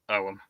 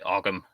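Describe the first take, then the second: First: No g sound is heard in the middle. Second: A g sound is heard in the middle. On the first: "the G H is a sort of like a a bit like the G H in the English word through ... you don't really pronounce it" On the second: "Most people pronounce it Ogham"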